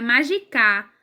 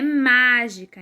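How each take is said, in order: First: "magicar" with the last syllable stressed; wrong final stress. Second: "mágica" with a long, strong first syllable; stress on MÁ. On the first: Teacher showing how it would sound otherwise, stress on final CAR of "magicar". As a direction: shift the weight onto the final CAR of "magicar". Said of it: "Senão seria magicar". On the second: Teacher correcting to the real word, first syllable MÁ stressed in "mágica". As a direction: punch and stretch MÁ in "mágica". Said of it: "a sílaba mais forte é o má". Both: Shown as a demonstration.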